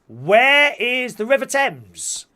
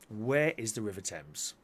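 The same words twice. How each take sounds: First: It is said in a lively, showy way. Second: It is said in a flat, dull way.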